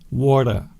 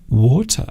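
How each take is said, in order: First: The word is said in an American accent. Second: The word is said in a non-American accent. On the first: "with an American accent" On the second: "I say water"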